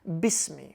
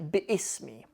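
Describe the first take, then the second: First: The syllables run together with no glottal stop. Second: A glottal stop separates bi from ismi. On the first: The speaker calls it right. "It's a hamzatul wasl" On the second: The speaker calls it wrong. "We don't have to say bi'ismi"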